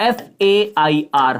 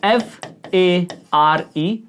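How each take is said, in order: First: F A I R spelled slowly letter by letter; slow letter-by-letter spelling of F A I R. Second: F A R E spelled very slowly letter by letter; slow letter-by-letter spelling of F A R E. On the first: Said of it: "मैं दो शब्द लिख रहा हूं". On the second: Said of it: "दूसरा शब्द लिखता हूं". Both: Shown as a demonstration.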